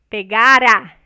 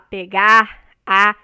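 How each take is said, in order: First: The R is tapped and joined to the vowel. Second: The final R is not linked as a tap. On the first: The speaker calls it right. "esse R final ele vai ser é, mais pronunciado quando tiver uma vogal depois dele" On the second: The speaker calls it wrong. "Você não vai falar pegar a criança"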